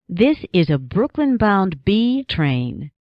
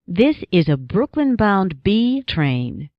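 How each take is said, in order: Both takes have the same delivery.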